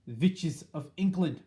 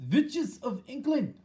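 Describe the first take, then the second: First: A slow yell, a little louder, pitch near normal. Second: A slow, much higher, louder shout to the crowd. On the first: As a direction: yell it again, more weighed down. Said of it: "she yelled". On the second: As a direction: call the hall to order with a booming high cry. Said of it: "shouted the Grand High Witch". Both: A narrator's reading.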